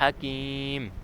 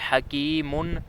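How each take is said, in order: First: The word ends on a bare m sound. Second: The word ends with an -un sound. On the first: This is the form used when stopping. "इसका वक़फ़ हो गया हकीम" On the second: This is the full form without stopping. "दो पेश हैं"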